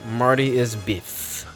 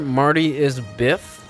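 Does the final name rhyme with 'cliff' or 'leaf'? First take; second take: leaf; cliff. First: The last word has a long 'ee' vowel. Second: The last word has a short 'i' vowel.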